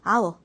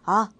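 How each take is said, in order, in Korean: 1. 두 단어가 합쳐져서 하나의 축약된 음절이 돼요. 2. 짧은 모음 하나로 빠르게 줄어들어요. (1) "I'll, will 이러면서 읽을 거고" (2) "더 빨리 읽으면 아, 우 하면서 그냥 훅 지나가 버릴 거예요"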